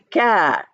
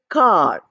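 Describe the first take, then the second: First: The vowel sounds like the 'a' in cap. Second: The vowel is an open 'ah' sound. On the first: The speaker calls it wrong. "But we don't say C A R, same A is there. We don't say car" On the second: The speaker calls it right. "We say car. Ah sound is used"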